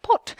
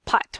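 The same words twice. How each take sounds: First: "Pot" in a British accent; one-word British accent demo. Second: Said in the usual way. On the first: Shown as a demonstration. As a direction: say a loud, rounded British "Pot". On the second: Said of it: "saying pot with a British voice".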